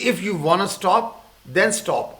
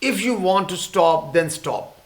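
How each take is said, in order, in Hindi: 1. दोनों शब्द मिलकर घटे हुए 'wanna' बन जाते हैं। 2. दोनों शब्द पूरे बोले जाते हैं, 'want to' की तरह।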